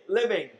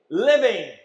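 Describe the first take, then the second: First: Said in the usual way. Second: "Living" said alone, louder, with a falling finish; stress on living. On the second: Shown as a demonstration. Preacher drilling the congregation, "Living" stressed loud. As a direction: punch the word "Living" on its own. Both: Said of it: "Now the emphasis is on living".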